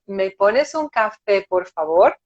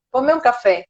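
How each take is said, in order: First: Slow, courteous asking; polite request. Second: Plain, matter-of-fact order; direct imperative. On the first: Customer asking for a coffee in a bar, politely. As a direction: ask courteously, unhurried, ending on a rise. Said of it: "Você vai chegar desse jeito". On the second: Customer walking into a bar and ordering coffee, directly. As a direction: order it directly, ending on a fall. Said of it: "alguém chega num bar e fala assim". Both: Acted.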